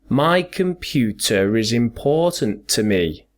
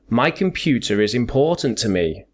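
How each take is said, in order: First: It is said more slowly than normal speech. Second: It is said at normal conversational speed.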